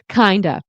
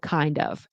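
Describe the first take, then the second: First: The two words blend into reduced 'kinda'. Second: Both words are said fully as 'kind of'. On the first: "Kinda instead of kind of" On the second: "instead of kind of"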